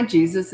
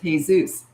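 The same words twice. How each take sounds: First: "Jesus" said the English way, JEE-zus; English pronunciation. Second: "Jesus" said hay-ZOOS; Spanish pronunciation. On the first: Coach greeting a new client, "Jesus" as English JEE-zus. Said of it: "Actually, it's pronounced". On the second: Client correcting coach, "Jesus" as Spanish hay-ZOOS. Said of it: "it's pronounced". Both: Retold or imitated.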